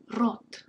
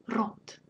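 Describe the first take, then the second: First: Рот with a rolled, trilled R; Russian trilled R demo. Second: Whispered teaching repetition; whispered repeat. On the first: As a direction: roll the R of Рот. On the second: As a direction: whisper Рот back. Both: Shown as a demonstration. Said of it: "Be sure to trill this sound".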